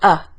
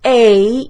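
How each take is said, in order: First: The word is unstressed and reduced. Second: The word is stressed, full and lengthened.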